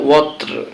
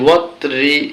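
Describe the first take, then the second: First: The word ends on the consonant 'r'. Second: The word ends with a short 'i' vowel. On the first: The reader stops at this word. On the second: The reading continues without stopping.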